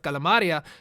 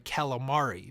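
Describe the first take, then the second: First: The word ends with an extra 'a' sound. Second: The word ends without an extra 'a' sound. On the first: This is how the speaker grew up saying it. "because that's the way I was raised" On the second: This is the form the listener understands. "Oh, sorry, calamari"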